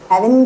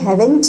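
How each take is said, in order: First: The word is clipped, with sounds reduced. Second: The word is said fully, every sound clear. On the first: "haven't कर दिया" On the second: "haven't भी नहीं करा"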